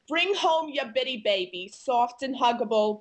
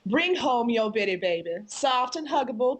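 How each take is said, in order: First: It is read in a New York accent. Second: It is read in an old Southern accent.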